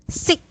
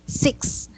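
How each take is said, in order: First: The word ends in a plain k sound. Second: The word ends in a k plus s sound. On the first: The speaker calls it wrong. "the way you say it is, it sounds like this" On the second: The speaker calls it right. "that's the correct way to say it"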